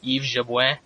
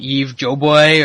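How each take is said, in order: First: The surname is said in a French-like way. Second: The surname is said the anglicized way, like 'Joe Boy'. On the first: The speaker calls it right. "That's relatively close to how it gets pronounced" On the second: The speaker calls it wrong. "or whatever Rogan says"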